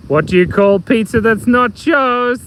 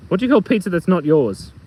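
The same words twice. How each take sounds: First: Slow, drawn-out riddle, higher at the end; stretched-out joke question; joke setup. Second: Said in the usual way. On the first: Acted. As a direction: pose the riddle slowly, stretching the last word. Joke setup, asked first time.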